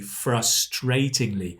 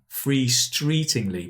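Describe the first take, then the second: First: The two vowels sound like a. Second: The two vowels sound like ee. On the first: The speaker calls it right. "but it should be A and A" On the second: The speaker calls it wrong. "I said E instead of A, and instead of A, I said E"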